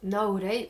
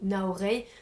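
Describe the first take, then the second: First: The name is said with Japanese-style sounds. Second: The name is said with French-style sounds.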